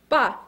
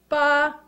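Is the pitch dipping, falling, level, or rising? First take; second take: falling; level. First: The pitch drops sharply and briefly. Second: The pitch stays high and level. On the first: "a definitive little jump, an exclamation point" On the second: "First tone is high-pitched"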